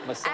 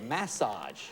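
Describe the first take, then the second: First: The word is said in a plain way. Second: The word is said in a sexy-sounding way. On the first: The speaker calls it wrong. "That sounds better than massage" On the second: The speaker calls it right. "even the way you say it is sexier"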